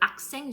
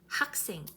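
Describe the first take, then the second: First: The initial h sound is dropped. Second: The initial h sound is clearly pronounced. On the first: The speaker calls it wrong. "comme les Français, les personnes francophones euh, qui ne prononcent pas H" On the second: The speaker calls it right. "prononcez bien H"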